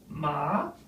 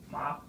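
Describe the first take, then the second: First: The pitch dips down and rises again. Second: The pitch stays level and high. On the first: It means horse. "The third, falling rising" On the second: It means mother. "the first tone to the word M A, the flat tone"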